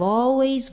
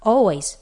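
First: The word is drawn out and lengthened. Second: The word is said at normal length.

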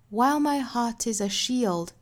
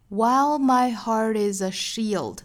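First: It is said slowly with a British accent. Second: It is said with an American accent. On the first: "我再用非常慢的速度用英音来读一下" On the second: "我们再来看美音的部分"

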